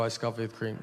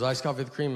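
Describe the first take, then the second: First: Low, restrained repeat of the order; confirming reply. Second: Reading the order back as a question; double-checking, in a voiced barista's part. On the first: Retold or imitated. Customer confirms the iced coffee order, low patient reply. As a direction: state it back lower, as settled fact. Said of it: "I go". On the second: Barista checks the customer's order once more, questioning. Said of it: "And then she goes".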